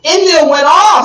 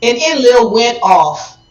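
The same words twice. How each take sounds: First: Louder and higher, hammering it home; emphatic repeat. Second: Said in the usual way. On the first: Real, not acted. Storyteller stresses how angry Enlil got, louder. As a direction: repeat it with a punch.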